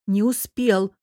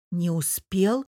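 First: Louder, flat falling успел, final; firm repeat. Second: Questioning rise on успел; doubtful. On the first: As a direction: settle it, dropping успел hard. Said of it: "повторила Лиза". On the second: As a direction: voice the doubt, lifting успел at the end. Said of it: "с сомнением уточнила София". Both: Acted.

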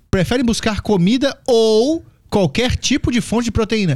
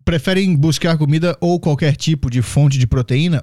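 First: Slow, higher, mocking disbelief; incredulous rereading. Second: Said in the usual way. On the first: Shown as a demonstration. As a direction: reread it like it's absurd. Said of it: "Que comida?". (releitura incrédula)

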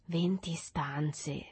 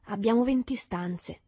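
First: Slow, drawn-out wonder; awed, lingering echo; admiring. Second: A touch of boasting, pitched up; mildly proud, higher voice; proprietor's vanity. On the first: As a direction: repeat it slowly, marvelling. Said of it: "ripeté una voce ammirativa". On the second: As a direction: show off a little about the house. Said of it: "una vanità di proprietario". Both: A narrator's reading.

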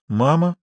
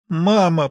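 First: Mild lost, questioning "Мама"; a touch of bewilderment; bewildered. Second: Mildly moaned "Мама", higher and falling; a touch of tearful pleading. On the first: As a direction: say it uncertainly, with a small rising end. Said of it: "повторила она растерянно". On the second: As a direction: moan it as if through tears, understated. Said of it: "простонала она сквозь слёзы". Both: A narrator's reading.

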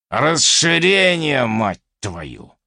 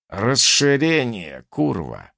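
First: Growled curse. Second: Drawn-out growl, dropping on the last word; growled curse. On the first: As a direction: draw it out as a furious curse, falling at the end. (сердито, протяжно и громче) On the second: (прорычать ругательство) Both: A narrator's reading. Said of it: "прорычал я".

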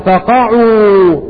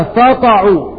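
First: "فقعوا" said very slowly as "faqa'u", falling down in prostration; correct reading. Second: "فقعوا" misread as "fataqu", from bursting; common misreading. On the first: Teacher slowly giving the correct recitation. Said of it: "ولكن قراءتها الصحيحة". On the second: Teacher showing the mistake some readers make. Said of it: "البعض يقرأها". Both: Shown as a demonstration.

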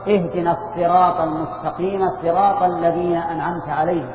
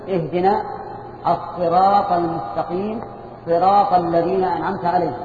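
First: "الصراط" and "صراط" with an emphatic, heavy ṣ; recited with ṣād. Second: "الصراط" and "صراط" said with a light s, as "السراط" and "سراط"; recited with sīn. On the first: Teacher showing an allowed Quran reading, "الصراط" with emphatic ṣād. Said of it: "فيجوز أن تقرأ". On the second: Teacher showing the alternative Quran reading, "الصراط" with light sīn. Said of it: "أو تقول". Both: Shown as a demonstration.

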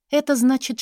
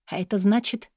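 First: Это пущено вверх и громче, как вдруг осенило; stress on это. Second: Said in the usual way. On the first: A narrator's reading. Narrator realizing who is coming, stressing это.

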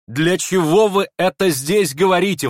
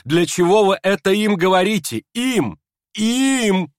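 First: High, loud indignant cry; outcry. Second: High, loud, rising to a shrill peak on Им; indignant outcry. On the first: Aglaya to the prince, crying out indignantly. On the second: Aglaya to the prince, outraged outcry. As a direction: fling the words at him, furious. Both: Acted. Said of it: "вдруг вскричала Аглая".

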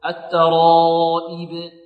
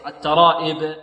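First: Slow chanted الترائب with long aa and pure i; sustained الترائب, true kasra; preserved kasra. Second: الترائب with the madd broken into "eb"; slackened ending on الترائب; faulty vowel. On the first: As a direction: stretch the madd, end on a clear "ib" in الترائب. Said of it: "حافظ على كسر". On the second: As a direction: demonstrate a common slip in الترائب, e for i. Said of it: "وهذا يكسر". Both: Shown as a demonstration.

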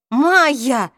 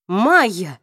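First: Loud, desperate exclamation of her name; half begging, half furious; pleading angry shout. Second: Alarmed cry of her name; startled, calling her name in fear; frightened call. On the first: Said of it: "воскликнул Саймон с мольбой и злостью". (умоляющий и злой возглас) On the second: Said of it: "испуганно повторил Саймон". (испуганный оклик) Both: A narrator's reading.

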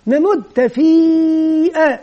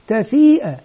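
First: تفيئة with the long vowel stretched over four or five beats; teacher correcting a pupil; drawn-out long vowel. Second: تفيئة said quickly with no long vowel; child's wrong reading; wrong short vowel. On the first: Shown as a demonstration. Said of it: "نقول له". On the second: Retold or imitated. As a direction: clip تفيئة short, the pupil's mistake. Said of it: "هذا الطفل أخطأ".

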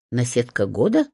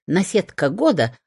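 First: Наседка года asked with a rising, doubtful tune; doubtful echo. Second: Наседка года announced with pride, falling; proud hen. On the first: The vet echoes the hen's boast, doubtful. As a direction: question наседка года in disbelief. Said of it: "уточнила я". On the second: The hen boasts to the vet, proudly. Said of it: "важно кивнула она". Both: A narrator's reading.

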